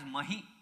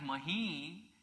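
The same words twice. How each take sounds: First: The final vowel is short. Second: The final vowel is long. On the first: It means a bull. "One if you say it as hrasva" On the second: It means the earth. "and one if you say it as dirgha"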